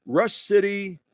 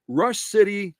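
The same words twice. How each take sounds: The two takes are said the same way.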